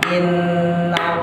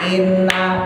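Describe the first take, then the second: First: The n is held long with a nasal hum. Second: The n is short with no nasal hum. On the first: The speaker calls it right. "baru keluar kalau kita tahan" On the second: The speaker calls it wrong. "ini nggak bakal dengung"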